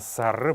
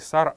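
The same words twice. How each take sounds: First: The word ends with a faint final vowel. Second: The word ends without a faint final vowel. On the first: The speaker calls it right. "а именно сар будет верная форма произнесения этого слова" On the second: The speaker calls it wrong. "не сар"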